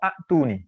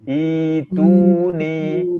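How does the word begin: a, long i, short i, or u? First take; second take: a; long i. First: The word begins with a short a vowel. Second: The word begins with a long i vowel. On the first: The speaker calls it wrong. "Yang paling salah adalah a'tuni" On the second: The speaker calls it right. "I dua harokat, i panjang"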